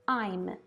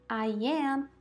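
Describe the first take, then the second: First: It is said as one contracted syllable. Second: It is said as two separate words. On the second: "a forma longa"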